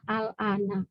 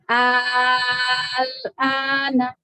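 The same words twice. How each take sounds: First: The opening vowel is short, two beats. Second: The opening vowel is held long, six beats. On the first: It simply means now. "sebelum ditambahkan hamzah itu dibacanya al-ana" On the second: It asks whether it is now. "Itu dipanjangkan enam harokat"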